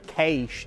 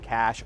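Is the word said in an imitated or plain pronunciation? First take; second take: imitated; plain. First: The word imitates another person's distinctive pronunciation. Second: The word is said in a plain, ordinary way.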